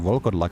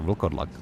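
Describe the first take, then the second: First: A vowel sound comes between the V and L. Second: No vowel sound comes between the V and L. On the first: This is how the game says it. "I wouldn't say Volkerlak" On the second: This is how it is said in the speaker's country. "I would say Volkerlak without the O"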